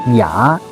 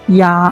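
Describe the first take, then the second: First: The pitch rises through the syllable. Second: The pitch stays level through the syllable. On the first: "Second tongue going up" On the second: "ya is going flat. Duck"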